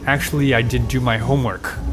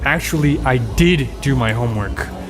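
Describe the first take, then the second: First: The word homework carries the stress. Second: The word did carries the stress. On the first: The speaker calls it wrong. "you stressed homework, it would sound very weird" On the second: The speaker calls it right. "You would have to stress the did"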